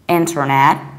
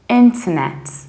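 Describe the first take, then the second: First: It is said in an American accent. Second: It is said in a British accent. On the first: "Whereas in the American accent, you say inter, pronouncing very strongly re" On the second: "In the British accent, we say internet"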